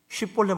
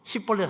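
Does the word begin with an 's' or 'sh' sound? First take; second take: sh; s. First: The word begins with a 'sh' sound. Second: The word begins with a plain 's' sound. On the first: The speaker calls it right. "십볼렛 못하고" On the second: The speaker calls it wrong. "십볼렛 하는 사람은 다 목 날라가는 거지"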